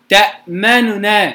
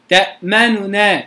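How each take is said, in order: No difference in how they are said.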